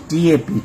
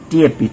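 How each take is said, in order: Both takes have the same delivery.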